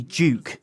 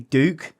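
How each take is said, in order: First: The name is said with a British accent. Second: The name is said with an American accent. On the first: "for us U K lads, we say Duke" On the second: "Americans say Duke"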